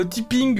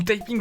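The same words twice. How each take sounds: First: "typing" said as "tipping"; French-style reading. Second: "typing" said as "taïping"; English-style reading. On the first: Player unsure of the English word, "typing" as "tipping". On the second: Player correcting to English, "typing" as "tie-ping". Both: Shown as a demonstration. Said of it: "je sais même pas comment ça se dit".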